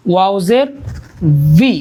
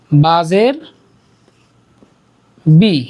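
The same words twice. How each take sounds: First: ওয়াও জের ভি with a clear v, not b; correct v sound. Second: বি said with a hard b, both lips closed; বাজের বি with a plain lip b; the wrong way: বি as a hard b; wrong b sound. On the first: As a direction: teeth on lip for ভি. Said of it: "দাঁতগুলো আমাদের এই ঠোঁটে লাগিয়ে দিয়ে". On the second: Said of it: "বাজের বি এর মতো হয়ে যাচ্ছে". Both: Shown as a demonstration.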